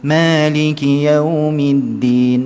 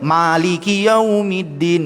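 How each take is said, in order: First: The first vowel is tilted slightly toward e. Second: The first vowel is a fully open a. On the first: The speaker calls it right. "kena bunyikan sedikit singit" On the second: The speaker calls it wrong. "bukan maliki yaumiddin"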